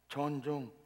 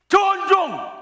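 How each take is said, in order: First: It is said reluctantly and half-heartedly. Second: It is said loudly and with energy.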